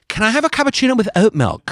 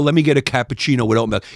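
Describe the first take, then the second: First: It is said in a soft, gentle way. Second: It is said in a gruff, masculine way.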